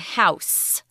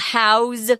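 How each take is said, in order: First: The word ends with a hissing s sound. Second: The word ends with a buzzing z sound. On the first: It names a building people live in. "If it's a noun, ... S sound" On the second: It means to give shelter to something. "But if it's a verb, it's a Z"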